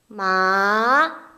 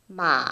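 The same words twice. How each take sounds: First: The pitch rises from middle to high. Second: The pitch stays low, dipping slightly. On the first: "이성은 음계 미에서 솔 정도로 올려주는 거" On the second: "최대한 낮게"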